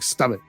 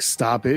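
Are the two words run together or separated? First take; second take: run together; separated. First: The two words run together as one. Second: The two words are said separately.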